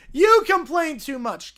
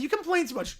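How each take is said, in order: First: "You" hit loud, the rest slower; stress on YOU. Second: Said in the usual way. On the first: Acted. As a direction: punch the word "You" as a retort. Repeats line as emphatic retort.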